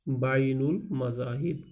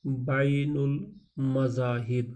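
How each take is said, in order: First: Said in the usual way. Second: بین المذاہب said very slowly, syllable by syllable; teacher sounding out بین المذاہب at half speed; slow spelling-out. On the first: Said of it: "teacher repeats at normal speed". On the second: Shown as a demonstration. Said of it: "teacher drills new word".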